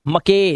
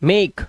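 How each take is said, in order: First: An extra vowel sound follows the final k. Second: The word ends on the k sound. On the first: The speaker calls it wrong. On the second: The speaker calls it right.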